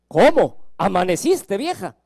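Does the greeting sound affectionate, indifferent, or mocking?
mocking. It is said with mock surprise. The partner is surprised the other woke up at all. "en el ocaso de la vida"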